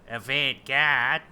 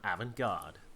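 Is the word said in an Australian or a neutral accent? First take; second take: Australian; neutral. First: The word is said in an Australian accent. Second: The word is said in a neutral accent.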